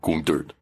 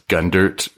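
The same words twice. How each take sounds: First: The name is said with a guttural German accent. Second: The name is said with an American accent.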